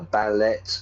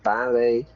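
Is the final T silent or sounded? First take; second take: sounded; silent. First: The final T is sounded. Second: The final T is silent. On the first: The speaker calls it wrong. "Spanish students will always pronounce" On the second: The speaker calls it right. "we don't pronounce the T"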